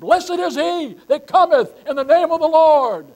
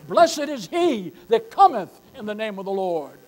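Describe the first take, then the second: First: It is shouted at the top of the lungs. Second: It is read at a normal volume.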